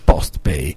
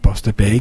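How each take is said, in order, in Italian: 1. La prima parola si dice all'inglese. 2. La prima parola si dice all'italiana. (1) "perché sembra tutto inglese" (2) "che è Poste Italiana e Pay"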